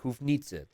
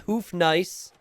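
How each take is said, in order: First: The word is said with a European-sounding pronunciation. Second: The word is said like English 'hoof nice'. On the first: The speaker calls it right. "It sounds more European" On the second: The speaker calls it wrong. "It's not Hoof Nice"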